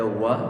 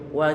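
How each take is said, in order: First: The syllable is said heavy and thick. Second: The syllable is said thin and light. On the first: The speaker calls it wrong. "bukan dibaca wa" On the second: The speaker calls it right. "wa kita baca tipis"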